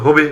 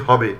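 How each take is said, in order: First: হবে said as "hobe"; closed "ho" opening হবে; close o vowel. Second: হবে said as "hɔbe"; open vowel. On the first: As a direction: say হবে with a rounded o, "hoh-be". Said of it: "হইবে থেকে হওয়ার কথা ছিল". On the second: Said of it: "কিন্তু আমরা বলি". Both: Shown as a demonstration.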